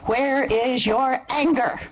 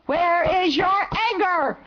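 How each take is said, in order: First: "Where is your anger?" said slowly, with the weight landing on "anger"; slow, heavy question that leans into "anger" and falls at the end; stress on anger. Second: "Where is your anger?" said slowly, with the weight on "your" and pitched higher; slow repeat that punches "your" and falls on "anger"; stress on your. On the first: Man along the march asking marchers where their anger is, stress on "anger". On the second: Man along the march pressing the marchers again, stress on "your". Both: Retold or imitated. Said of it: "and he said".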